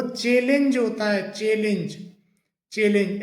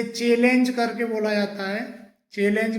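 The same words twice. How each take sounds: First: चैलेंज with a lighter second vowel, "che-linj"; correct pronunciation. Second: चैलेंज with a full e in "lenj"; common mispronunciation. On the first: Teacher modelling the right form, चैलेंज ending lightly in "linj". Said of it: "सही जो pronunciation होता है". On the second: Teacher showing the usual error, चैलेंज with full "lenj". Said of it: "जबकि इसका सही जो". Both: Shown as a demonstration.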